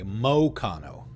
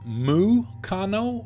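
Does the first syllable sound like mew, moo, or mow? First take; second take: mow; mew. First: The first syllable sounds like 'mow'. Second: The first syllable sounds like 'mew'. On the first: "So it's actually pronounced like an O?" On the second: "Is it M E W"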